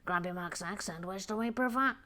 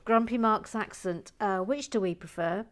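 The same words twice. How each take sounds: First: Put-on professor character voice; Professor Lago. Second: Said in the usual way. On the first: Announcing a poll question to viewers, in a professor character's voice. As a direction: read it out in a mannered professor's voice. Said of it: "this would be done in Professor Lago". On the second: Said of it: "so, so sorry".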